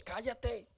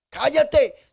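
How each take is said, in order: First: A much softer, hushed mock shush. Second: A louder, higher mock command to shut up; shouted shush. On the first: Crowd quietly hushes the blind man. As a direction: hiss it under the breath. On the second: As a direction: snap it at him. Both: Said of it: "Eso es lo que nos dice".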